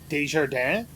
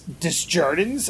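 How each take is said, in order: First: The name is said with French pronunciation. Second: The name is said with English pronunciation. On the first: The name keeps its original form. The speaker calls it right. "instead of" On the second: The name has been anglicized. The speaker calls it wrong. "it's Desjardins, and I'm like, no"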